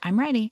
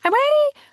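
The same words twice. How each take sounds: First: It is said in a calm, steady voice. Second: It is said in a whining, drawn-out voice. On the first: The child is calmly ready to talk. The speaker calls it right. "And then I would model back" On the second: The child is still upset and complaining. The speaker calls it wrong.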